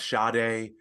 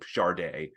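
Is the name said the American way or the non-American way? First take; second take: American; non-American. First: The name is said the common American way. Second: The name is said the singer's own, non-American way. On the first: This is the version most American listeners use. The speaker calls it wrong. "the American pronunciation of Sade, which is, I think, technically incorrect" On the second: This is how the singer herself says it. The speaker calls it right. "[name] produces uh, pronounces her name Sade"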